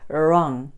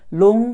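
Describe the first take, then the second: First: The word begins with an R sound. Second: The word begins with an L sound. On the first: The speaker calls it right. "r 라고 시도하시면서 wrong" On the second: The speaker calls it wrong. "long 하시면 안 되겠죠"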